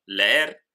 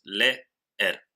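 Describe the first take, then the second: First: Said in the usual way. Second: Leer split as le... er, with a clear pause; syllable by syllable. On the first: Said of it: "En el ejemplo". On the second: Shown as a demonstration. Teacher separates two strong vowels in leer, syllable by syllable. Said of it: "las separamos en dos sílabas".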